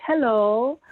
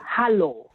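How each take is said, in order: First: Said in the usual way. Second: "Hello" with an open ah, like "hah-loh", falling; katakana English pronunciation. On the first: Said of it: "instead of, um, saying, like". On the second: Shown as a demonstration. Showing how her daughter spoke, katakana-style "Hello" as "hah-loh". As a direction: say "Hello" as Japanese katakana "harō". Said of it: "spelled in katakana".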